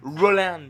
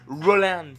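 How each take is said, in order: First: The name is pronounced the English way. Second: The same.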